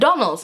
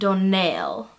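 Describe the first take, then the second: First: The stress is on the first syllable. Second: The stress is on the last syllable. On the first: The speaker calls it wrong. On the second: The speaker calls it right.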